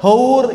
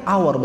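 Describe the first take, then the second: First: "hour" said literally with a sounded h; as spelled. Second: "Hour" with silent h, "awer"; English pronunciation. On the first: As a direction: read "hour" as written, ho-ur. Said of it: "nggak bacanya hour". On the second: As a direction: drop the h from "Hour". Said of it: "Hour bacanya". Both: Shown as a demonstration.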